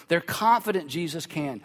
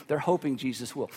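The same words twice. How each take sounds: First: "confident" firm and stretched, said with certainty; stress on confident. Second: "hoping" said lower and softer, tentative; stress on hoping. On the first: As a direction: lean on "confident", sure and steady. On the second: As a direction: drop the voice on "hoping", unsure. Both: Shown as a demonstration. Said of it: "That's the difference between faith".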